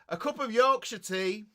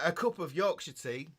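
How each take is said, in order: First: It is said noticeably louder than before. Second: It is said at normal speaking volume.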